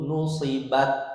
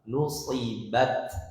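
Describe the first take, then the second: First: The final t has no breath released. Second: The final t has audible breath released. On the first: The speaker calls it wrong. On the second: The speaker calls it right. "Harus ada nafas yang keluar"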